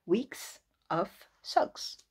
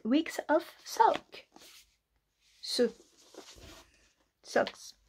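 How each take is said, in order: First: "Weeks of Socks" drawn out in a mock English accent; slow careful English title. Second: Slow exaggerated English accent on "Weeks of Sock"; mock posh English pronunciation. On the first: Retrying the book title in a hammed English accent. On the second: Reading the book title with a put-on English accent. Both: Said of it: "Quel accent merveilleux".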